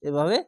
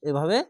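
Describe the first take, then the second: The two takes are said the same way.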